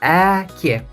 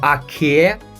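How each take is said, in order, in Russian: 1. Первый гласный — передний звук 'ae'. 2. Первый гласный — задний, открытый звук 'ah'. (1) "вот аке. Здесь есть звук, буква э" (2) "Не аке"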